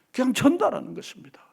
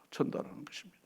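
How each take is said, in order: First: Said in the usual way. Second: "전달하는 것입니다" repeated in a soft, unvoiced whisper; whispered echo. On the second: Shown as a demonstration. Preacher echoing the point in a whisper to the congregation. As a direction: drop "전달하는 것입니다" to a breath.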